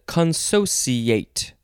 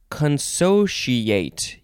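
First: The consonant before 'iate' sounds like s. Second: The consonant before 'iate' sounds like sh. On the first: "a C sound" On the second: "a she sound"

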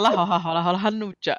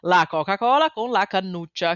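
First: It is said in a Tuscan accent. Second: It is said in a standard Italian accent.

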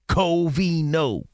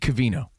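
First: The first vowel is a full, stressed 'o'. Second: The first vowel is reduced, like 'cuh'. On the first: The speaker calls it right. "he puts emphasis on the O" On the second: The speaker calls it wrong. "I say my own name wrong. You know that? I say Covino"

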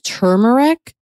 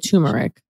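First: The first syllable has an R sound in it. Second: The first syllable sounds like 'too' with no R. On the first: The speaker calls it right. "I think there's an R in there" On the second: The speaker calls it wrong. "you're saying two"

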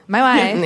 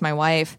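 First: It is said in an exaggerated put-on foreign accent. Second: It is said in the speaker's normal voice.

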